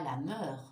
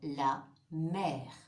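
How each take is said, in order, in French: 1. La voyelle dans mer est un son schwa. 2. La voyelle dans mer est un son è ouvert. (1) "On ne dit pas la mer" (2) "Il fait aussi le son est, comme dans la mer"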